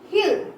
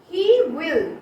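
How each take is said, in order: First: It is said as one contracted syllable. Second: It is said as two full words.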